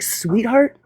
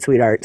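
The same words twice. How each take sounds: First: "Sweetheart?" rising high like a question. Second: "Sweetheart." low and falling, final; flat dismissive sweetheart. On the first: Retelling the panel spat, a rising questioning "Sweetheart?". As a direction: ask "Sweetheart?" with a lifted, doubtful tune. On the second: Correcting herself to the viewer, a low falling "Sweetheart.". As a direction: drop "Sweetheart." down flat like a put-down. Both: Retold or imitated. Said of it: "Or no, I said".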